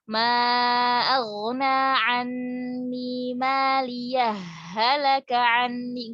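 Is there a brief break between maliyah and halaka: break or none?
none. Maliyah runs straight into halaka without a break. The speaker calls it wrong. "nggak boleh kita idghamkan, nggak kayak gini"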